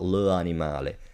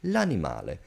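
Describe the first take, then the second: First: The article is a separate syllable before the noun. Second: The article merges with the noun into one word. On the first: The speaker calls it wrong. "do not read out the apostrophe. It's not le animale" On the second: The speaker calls it right. "The two words joined by the apostrophe are pronounced as one"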